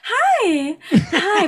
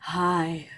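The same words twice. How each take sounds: First: It is said in a high-pitched voice. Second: It is said in a lower, normal voice. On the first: "why is that supposed to sound more polite? Be like"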